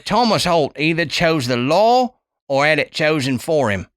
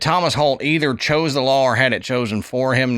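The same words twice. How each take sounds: First: It is said in a put-on English accent. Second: It is said in the speaker's normal accent.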